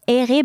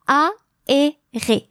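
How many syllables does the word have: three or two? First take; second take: two; three. First: The first vowels blend into two syllables. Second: Each vowel is separate, giving three syllables. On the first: The speaker calls it wrong. "not aéré" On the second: The speaker calls it right. "but aéré. Three syllables in French"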